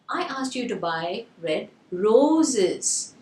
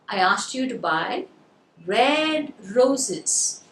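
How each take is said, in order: First: The word "roses" is stressed. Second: The word "red" is stressed. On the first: "the stress is on the roses" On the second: "So now you got the word red"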